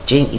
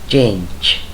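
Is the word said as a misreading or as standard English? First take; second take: misreading; standard. First: The word is sounded out as a misreading. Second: The word has the standard English pronunciation. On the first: The speaker calls it wrong. "Salah kalau mengucapkan change, itu salah" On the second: The speaker calls it right. "Yang betul itu adalah change"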